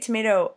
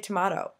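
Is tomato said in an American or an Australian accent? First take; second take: American; Australian. First: It is said in an American accent. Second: It is said in an Australian accent. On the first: "I say tomato" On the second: "my lovely friends Natalie and Natalie from Australia do say tomato"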